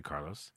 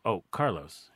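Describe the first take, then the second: First: Plain. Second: Said in the usual way. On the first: Retold or imitated. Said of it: "And I said". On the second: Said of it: "And I go".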